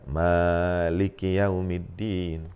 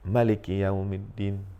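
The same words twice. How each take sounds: First: The first vowel of maliki is drawn out long. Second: The first vowel of maliki is kept short. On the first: "dengan panjang" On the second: "dengan pendek"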